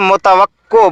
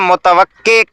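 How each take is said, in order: First: The word ends with an 'o' vowel sound. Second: The word ends with an 'e' vowel sound. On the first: The speaker calls it wrong. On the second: The speaker calls it right.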